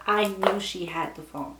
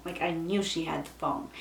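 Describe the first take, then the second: First: Said in the usual way. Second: "knew" leaned on, lower and softer; quieter repeat for emphasis. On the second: Shown as a demonstration. Friend hearing the story, "knew" stressed softly. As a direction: press down on "knew" in a low, quiet restating.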